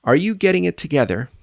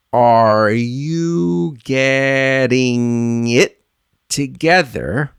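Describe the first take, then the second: First: Brisk, linked question, higher pitch; fluent quick model. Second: Drastically stretched syllables, long held vowels; very slow model. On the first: Teacher modelling for learners to repeat, quick and fluent. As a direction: run it together quickly in one breath. Same phrase at fluent speed. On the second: Teacher modelling for learners to repeat, very slow and drawn out. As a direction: draw every word out in slow motion. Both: Shown as a demonstration.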